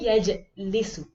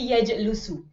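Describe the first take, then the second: First: The vowel after the l is i. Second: The vowel after the l is u. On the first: The speaker calls it right. "I will always say yajlisu" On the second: The speaker calls it wrong. "Nor will I say yajlusu"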